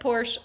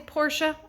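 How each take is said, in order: First: It is said in a plain, everyday way. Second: It is said in a posh, fancier way. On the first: This is how the speaker always says it. "I said Porsche" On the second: This is the posh way the speaker avoids. "I don't have to be posh"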